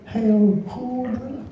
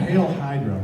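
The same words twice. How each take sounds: First: Higher, slow and drawn out; slow put-on cartoon voice. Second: Said in the usual way. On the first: Shown as a demonstration. Voice actor giving fans the line in character. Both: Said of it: "performing the line on request".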